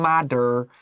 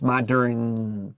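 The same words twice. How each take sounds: First: The final N sound is weak and unclear. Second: The final N sound is clear and full. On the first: The speaker calls it wrong. "不是" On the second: The speaker calls it right. "it's modern. ... that's how you get that correct N sound"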